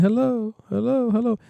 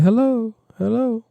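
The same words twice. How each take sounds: First: High hellos repeating; longer echo hello. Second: High hello with one echo; short echo hello. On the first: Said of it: "Up here to be like". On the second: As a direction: say hello with a short delay tail. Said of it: "right here to be like". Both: Shown as a demonstration.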